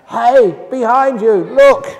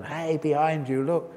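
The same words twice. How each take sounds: First: Loud high yell of a moviegoer; shout at the screen. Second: Said in the usual way. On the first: Retold or imitated. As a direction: yell a warning to the hero on screen. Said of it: "somebody else would shout out".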